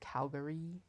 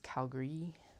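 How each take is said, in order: First: The middle vowel is fully pronounced. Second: The middle vowel is dropped. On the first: The speaker calls it wrong. "so it's not Calgary" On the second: The speaker calls it right. "we elide the A a lot"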